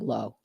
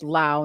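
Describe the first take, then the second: First: The vowel rhymes with go. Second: The vowel rhymes with cow. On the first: The speaker calls it wrong. "not Rob Lowe" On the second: The speaker calls it right. "But it's pronounced Lau, like Dow"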